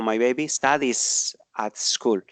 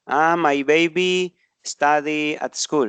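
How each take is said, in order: First: Said in the usual way. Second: Mistaken example. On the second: Shown as a demonstration.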